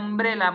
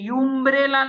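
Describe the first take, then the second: First: The word begins with an uh sound. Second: The word begins with a yoo sound. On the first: The speaker calls it right. "આપણે અમ્બ્રેલા બોલીએ છીએ" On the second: The speaker calls it wrong. "આપણે યુમ્બ્રેલા નથી બોલતા"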